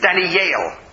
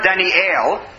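First: The name ends with a 'yal' sound. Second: The name ends with an 'el' sound. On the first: The speaker calls it right. "A, is under the yud. ... it's Daniel" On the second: The speaker calls it wrong. "his name is not Daniel"

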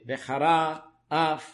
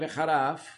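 First: The words are said slowly, each letter distinct. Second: The words are said fast, running together. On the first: "צריך לבטא" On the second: "במהירות"

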